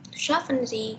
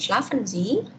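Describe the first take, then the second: First: It is said with the intonation of a command. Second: It is said with the intonation of a question. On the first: The listener is told to sleep. "kalau cuman dua kata kan jadinya nyuruh ya. Schlafen Sie gitu, tidurlah Anda" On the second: The listener is asked whether they sleep. "apakah Anda tidur?"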